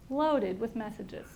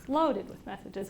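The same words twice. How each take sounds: First: Loaded with messages said slowly, weight on loaded; slow emphasis. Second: Said in the usual way. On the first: Shown as a demonstration. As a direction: lean on loaded, drawn out. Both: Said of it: "repeats for emphasis".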